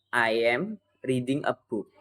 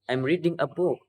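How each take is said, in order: First: It is said with an Indonesian accent. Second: It is said with an English accent. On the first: The speaker calls it wrong. "logatnya itu kayak logat-logat Indonesia" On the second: The speaker calls it right. "pakai logat Inggris saja"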